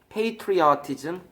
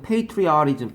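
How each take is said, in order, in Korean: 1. -ism 앞의 t는 분명한 t입니다. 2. -ism 앞의 t는 짧은 flap입니다. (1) "보통 T가 R로 바뀌어" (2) "T가 R로 바뀌어"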